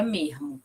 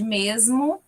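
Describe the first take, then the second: First: Mermo with the s as a breathy h; glottal s. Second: Said in the usual way. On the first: Shown as a demonstration. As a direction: say mermo, the s turned into a soft h. (mermo com s aspirado) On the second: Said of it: "Em vez de".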